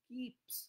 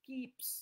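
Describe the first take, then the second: The two takes are said the same way.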